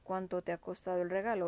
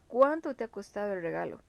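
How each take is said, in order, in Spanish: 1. La palabra 'cuánto' se dice plana, sin énfasis de pregunta. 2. La palabra 'cuánto' se enfatiza mucho, como pregunta. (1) "no sería tan um, acentuado la entonación de pregunta" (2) "Va tildado pues para indicar justamente esa exaltación de la palabra"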